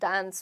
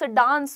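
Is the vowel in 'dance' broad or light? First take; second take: light; broad. First: The vowel is a lighter, flatter 'a' sound. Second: The vowel is a broad, open 'aa' sound. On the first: The speaker calls it right. "हल्का सा डांस बोलते हैं, ए का sound आता है" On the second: The speaker calls it wrong. "डांस डांस मत बोलो"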